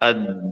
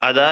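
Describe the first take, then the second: First: The d sound is long and doubled. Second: The d sound is short and single. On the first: "രണ്ട് ദാലുകൾ പറയാനുള്ള സമയം ഉപയോഗിച്ചുകൊണ്ട്" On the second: "അവിടെ ഒരു ദാലേ ഉള്ളൂ, ഒരു ദാലിന്റെ സമയം എടുത്തിട്ടുള്ളൂ"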